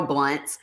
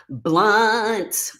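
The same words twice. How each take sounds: First: Said in the usual way. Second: BLUNT stretched out long, higher in pitch; drawn-out name. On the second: Real, not acted. Streamer greeting her friend, "Blunt" playfully drawn out and high. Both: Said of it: "put a bunch of Z's on the end".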